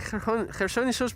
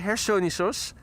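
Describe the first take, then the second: First: The name begins with a hard G sound. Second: The name begins with an H sound. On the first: The speaker calls it wrong. "It's like Gersonisos" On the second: The speaker calls it right. "but you say Hersonisos"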